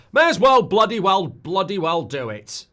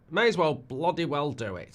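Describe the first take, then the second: First: Belted out, higher and louder; loud catchphrase. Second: Said in the usual way. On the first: Pretend. Streamer bellows his own catchphrase about putting Barcelona on, loud. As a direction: shout the catchphrase like a rallying cry. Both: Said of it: "That's what I say".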